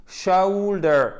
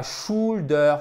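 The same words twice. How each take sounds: First: Shoulder stretched high as sheu-oul-der; exaggerated diphthong. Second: Shoulder with a pure French ou, shool-der; wrong plain OU. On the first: Teacher breaking down the sound, shoulder with overdone diphthong. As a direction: glide slowly from E to ou inside shoulder. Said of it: "un E qui tire vers le ou". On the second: Teacher showing learners the mistake, shoulder without diphthong. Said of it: "c'est pas shoulder". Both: Shown as a demonstration.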